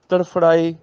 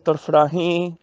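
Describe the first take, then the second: First: The ending is said without nasal sound. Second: The ending is said through the nose. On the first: One of them is writhing. "ਇੱਕ ਵਚਨ ਦਾ ਉਚਾਰਨ" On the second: Many of them are writhing. "ਬਹੁਵਚਨ ਦਾ ਉਚਾਰਨ ਹੋਏਗਾ ਨੱਕ ਨਾਲ"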